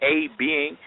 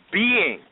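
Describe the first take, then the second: First: "a" said as a full "ay" before "being"; stress on A. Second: "being" set off by a pause, pitched high; emphatic BEING. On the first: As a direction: set "a" apart as "ay" to rule it out. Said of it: "So it's not talking about". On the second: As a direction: land on "being" alone, higher, falling at the end. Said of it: "It's talking about". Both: Shown as a demonstration.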